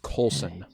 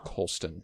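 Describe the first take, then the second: First: The name has no t sound in it. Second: The name has a t sound in it. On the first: The speaker calls it right. "It is Colson Whitehead" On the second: The speaker calls it wrong. "not Colston"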